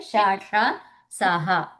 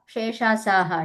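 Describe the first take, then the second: First: శాషాసాహ very slowly, syllable by syllable; each sound of శాషాసాహ held apart; separated letter sounds. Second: శేషాసాహ blurred into one word; run-together mispronunciation. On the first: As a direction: spell out శాషాసాహ as four distinct long sounds. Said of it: "ఏమనాలి?". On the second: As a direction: say శేషాసాహ as a single word, first vowel as "she". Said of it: "శేషాసాహ అని చెప్పకుండా". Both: Shown as a demonstration.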